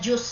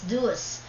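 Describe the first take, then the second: First: The word begins with a j sound. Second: The word begins with a d sound. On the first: The speaker calls it wrong. "akala ko nung una juice siya eh, but it's not" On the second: The speaker calls it right. "it is pronounced as duos in um, in American English"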